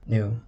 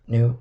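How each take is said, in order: First: Said in the usual way. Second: A sudden loud shriek of the word Knew; Aunt Petunia shrieking "Knew?" back at Harry. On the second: A narrator's reading. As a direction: fling "Knew?" out loud and sharp. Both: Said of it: "shrieked Aunt Petunia suddenly".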